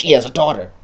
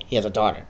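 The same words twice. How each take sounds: First: Louder, pressed announcement; loud reveal. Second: Said in the usual way. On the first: Shown as a demonstration. Player hushing the audience to reveal the daughter, said louder. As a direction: lean on it like a big secret. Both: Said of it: "Shh, shh".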